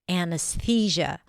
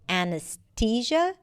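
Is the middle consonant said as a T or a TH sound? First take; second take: TH; T. First: The middle consonant is a soft TH sound. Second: The middle consonant is a plain T sound. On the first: "usually it's pronounced with a T H" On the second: "saying it with a T sound"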